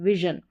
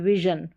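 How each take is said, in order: First: The middle consonant is a soft 'zh' sound. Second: The same.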